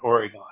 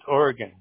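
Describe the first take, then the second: First: Oregon is said in a Southern-sounding way. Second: Oregon is said the way locals say it. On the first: The speaker sounds like an outsider from the South. The speaker calls it wrong. "not Oregon" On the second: The speaker sounds like a resident of the state. The speaker calls it right. "If you're an Oregonian, it's Oregon"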